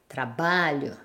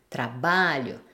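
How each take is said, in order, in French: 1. L'accent est sur l'avant-dernière syllabe. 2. L'accent est sur l'avant-dernière syllabe.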